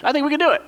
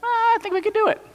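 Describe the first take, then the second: First: High, light hesitant voice; timid Caleb. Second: Very high, small hesitant voice; a meek little voice floating an idea; timid Caleb. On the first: Preacher repeating Caleb's hopeful line to the congregation, in a lighter higher voice. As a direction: offer it shyly up high. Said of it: "that's Caleb's role in the passage". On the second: The lone spy Caleb timidly telling the others they could do it, in a tiny high voice. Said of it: "Caleb speaks up, and he's like". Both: Pretend.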